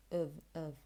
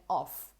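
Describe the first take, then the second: First: "of" low and soft, as "uhv"; short, unstressed "of"; weak form. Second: "off" with a full open vowel; stressed, unreduced "off"; strong form. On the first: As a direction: reduce "of" to schwa and v. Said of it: "He's saying". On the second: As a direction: say "off" heavy and clear. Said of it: "he's not exactly saying". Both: Shown as a demonstration.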